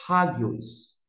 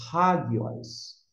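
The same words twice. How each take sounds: First: Hagios with a breathy H like in house; aspirated H. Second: Hagios, slow, with an H sound at the start; slow Greek word. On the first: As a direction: start hagios with an H. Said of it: "como se tivesse um H". (hagios com H como em house) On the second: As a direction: say hagios slowly, aspirated H. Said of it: "O próximo vocábulo é". (hagios devagar, com H aspirado) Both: Shown as a demonstration.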